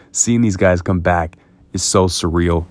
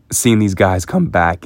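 First: Said in the usual way. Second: Cracking voice, slow and emotional. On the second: Real, not acted. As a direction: voice cracks mid-sentence. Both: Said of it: "my voice just cracked right there".

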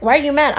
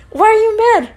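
First: Said in the usual way. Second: Higher, pressing repeat of the question; mock nagging insistence. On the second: Date badgering her in the car, insistent. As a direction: imitate him pestering, voice pushed up.

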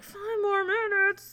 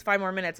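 First: High, drawn-out wail of disbelief; dismayed echo. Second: Said in the usual way. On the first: Retold or imitated. Patient told to wait with a full bladder, dismayed. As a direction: stretch it out high in mock dismay.

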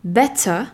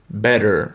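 First: British better; "better" with a clear T and no final R; British English. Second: American better; "better" with a T like D and a final R, "bedder"; American English. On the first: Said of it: "en anglais, on dira". (en anglais britannique, "better" avec un T net, sans R) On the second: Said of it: "En américain". (en américain, "better" avec un T comme un D et un R final) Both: Shown as a demonstration.

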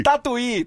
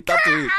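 First: Said in the usual way. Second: Tatuí squealed much higher, falling at the end; Tatuí in a comic falsetto; squeaky mock Tatuí. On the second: Shown as a demonstration. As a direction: toss the town name out in a silly high voice. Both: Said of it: "pra todo mundo lá do Tatu".

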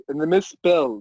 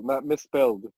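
First: Misspell said with no d ending; misspell, ending on a clear l; misspell without the -ed. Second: Misspelled said with a clear d ending; misspelled, ending on a d sound. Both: Shown as a demonstration.

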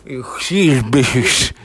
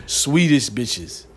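First: Mocking slow lisped voice; lisp imitation. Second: Put-on very slow, louder Swedish accent. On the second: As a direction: drag it out like a Swede. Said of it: "I was trying to do their accent".

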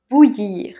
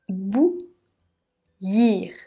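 First: Said in the usual way. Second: Bou- then Yir, said as two separate beats; split into syllables. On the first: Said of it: "Dans une phrase". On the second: Shown as a demonstration. Teacher to learner showing the two syllables, spoken apart. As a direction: break "Bouillir" into "Bou-" and "Yir" with a pause. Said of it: "le i et les deux L se prononcent y".

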